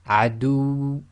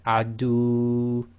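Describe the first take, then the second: First: The final waw is short and strongly emphasized. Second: The final waw is a long, drawn-out vowel. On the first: The speaker calls it right. "cut this short to a length of one and overemphasize the waw" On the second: The speaker calls it wrong. "what you don't want to do is read it as if it's the long vowel dhamma waw"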